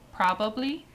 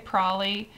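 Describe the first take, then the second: First: All three syllables are said in full. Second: The middle syllable is dropped, making it shorter. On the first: "this next word is" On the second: "in real life I would just say"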